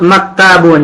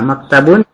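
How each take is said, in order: First: The vowel after t is drawn out long. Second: The vowel after t is kept short. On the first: The speaker calls it wrong. "Antum tadi sebut maktabun" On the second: The speaker calls it right. "taknya pendek"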